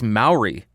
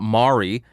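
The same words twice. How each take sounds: First: The first syllable sounds like 'mao'. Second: The first syllable does not sound like 'mao'. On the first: The speaker calls it right. "it is Maori" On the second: The speaker calls it wrong. "it is not Maori"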